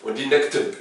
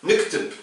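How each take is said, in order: First: "naktub" said as nektep, short vowels swallowed. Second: "Naktub" in a Moroccan accent with the vowels swallowed, said as nektep; Moroccan Arabic. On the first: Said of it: "au lieu de dire naktub". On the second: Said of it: "je vais le faire à la marocaine". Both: Shown as a demonstration.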